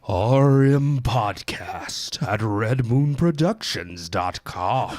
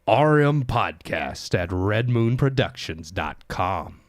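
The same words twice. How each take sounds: First: It is said in a put-on spooky voice. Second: It is said in his normal voice.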